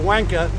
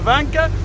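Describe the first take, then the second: First: The name begins with a W sound. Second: The name begins with a V sound. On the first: This is the British way of saying the name. The speaker calls it wrong. "when you pronounce it Britishly, it's W-A-N-K" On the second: This is the German way the family says the name. The speaker calls it right. "but we say"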